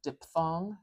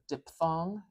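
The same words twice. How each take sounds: First: The middle consonant is pronounced as a P. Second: The same.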